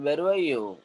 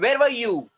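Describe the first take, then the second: First: It is said flatly without emotion. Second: It is shouted with angry force. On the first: "अब आप ऐसे बोलेंगे क्या? ... वो सुनने में nonsense लगेगा" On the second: "the father shouted at him"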